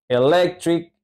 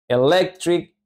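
The two takes are said the same way.

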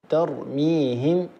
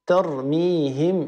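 Both takes have the same delivery.

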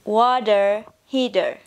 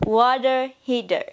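First: It is said in an American English accent. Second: It is said in an American English accent.

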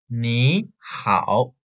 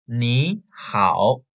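Both takes have the same delivery.

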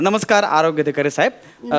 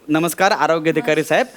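The two takes are said the same way.

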